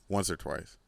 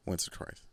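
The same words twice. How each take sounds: First: Said in the usual way. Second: Whispered once or twice, much softer; whispered repeat of once or twice. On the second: Shown as a demonstration. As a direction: breathe it as a private aside.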